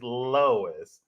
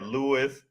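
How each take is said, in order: First: The name is pronounced like Lois. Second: The name is pronounced like Lewis. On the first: The speaker calls it right. "It's it's Lois" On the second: The speaker calls it wrong. "You said Lewis Lane"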